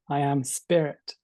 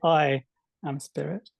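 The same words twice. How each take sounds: First: The emphasis falls on the word spirit. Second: The emphasis falls on the word I.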